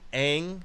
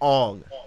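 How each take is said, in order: First: The vowel sounds like the one in 'bang'. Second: The vowel sounds like the one in 'long'. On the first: The speaker calls it right. "that's how you pronounce it" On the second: The speaker calls it wrong. "started calling him Ong in the movie"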